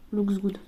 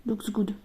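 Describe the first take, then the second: No difference in how they are said.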